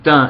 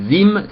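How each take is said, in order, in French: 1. Le mot commence par un son t. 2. Le mot commence par un son z. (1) "c'est le même mot" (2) "c'est pas le même accent"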